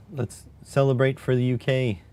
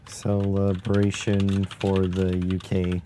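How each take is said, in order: First: Mock cheer. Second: A slow, mock-grand announcement; slow drawn-out celebration. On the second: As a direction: draw "Celebration for the U K" out slowly, word by word.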